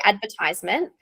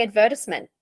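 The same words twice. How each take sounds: First: Advertisement with stress on "ver" and a long "tize" ending; Australian teacher demonstrates her own way, plain; her own pronunciation. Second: Advertisement with "tis" short, ad-VER-tis-ment; teacher shows the other variant, careful demo; alternative pronunciation. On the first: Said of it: "I say advertisement". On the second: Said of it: "some people in Australia do say". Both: Shown as a demonstration.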